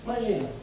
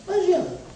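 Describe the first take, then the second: First: Said in the usual way. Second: Imagina exclaimed high. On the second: Shown as a demonstration. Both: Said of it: "Então, vinte e um anos".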